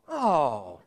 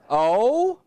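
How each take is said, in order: First: It sounds disappointed. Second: It sounds puzzled and confused.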